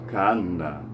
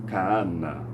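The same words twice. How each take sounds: Both takes have the same delivery.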